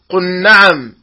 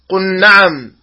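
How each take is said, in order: The two takes are said the same way.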